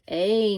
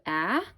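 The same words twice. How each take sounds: First: A long vowel, like the letter's name. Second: A short vowel, as in cap. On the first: "the A is going to say A now. That's the long sound" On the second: "instead of a"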